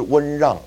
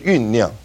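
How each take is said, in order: First: The first syllable sounds like wen. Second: The first syllable sounds like yun. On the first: The speaker calls it wrong. "就不是温让哈、这个温让就不对了" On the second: The speaker calls it right. "这个是酝酿"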